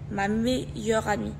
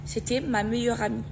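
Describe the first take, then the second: First: "meilleure" slowed and broken into syllables; emphatic repetition. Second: Said in the usual way. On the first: Real, not acted. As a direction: say "meilleure amie" slowly, leaning on "meilleure". Répétition lente et appuyée. (« meilleure » détaché et appuyé)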